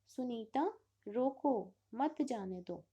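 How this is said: There is a pause after रोको.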